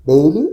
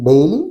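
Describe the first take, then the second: Both takes have the same delivery.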